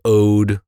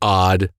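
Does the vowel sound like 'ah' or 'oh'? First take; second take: oh; ah. First: The vowel is a long 'oh' sound. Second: The vowel is a short 'ah' sound. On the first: "I'm saying ode because it's only O and D" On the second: "or odd"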